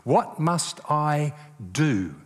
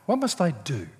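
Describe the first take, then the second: First: "What must I do" drawn out slowly, leaning on "What"; preacher slowly quoting "What must I do", stress on "What"; slow, weighty question. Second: "must" hit harder than the other words; "What must I do?" with the push on "must"; stress on must. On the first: Preacher highlighting the lawyer's question, slow and weighty. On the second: Preacher repeating the question with weight on "must". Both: Shown as a demonstration. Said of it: "captured in that two-letter word".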